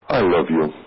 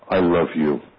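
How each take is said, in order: First: It is said in a perfunctory, offhand way. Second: It is said in a sincere, heartfelt way. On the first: The feeling behind it is insincere. The speaker calls it wrong. "a perfunctory" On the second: The feeling behind it is sincere. The speaker calls it right. "a sincere, heartfelt"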